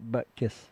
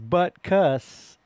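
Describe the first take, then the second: First: The second syllable sounds like kiss. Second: The second syllable sounds like cuss. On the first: The speaker calls it wrong. "I think people pronounce it butt kiss" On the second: The speaker calls it right. "it is butt cuss because it's a U"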